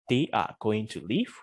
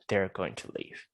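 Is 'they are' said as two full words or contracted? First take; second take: full; contracted. First: They are is said as two full words. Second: They are is contracted into one syllable. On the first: "instead of saying" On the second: "we can say"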